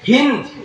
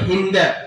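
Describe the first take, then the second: First: The name ends on the consonant d. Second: The name ends with an added a vowel. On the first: "আকার নেই" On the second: "আমরা আকার দিয়ে উচ্চারণ করি"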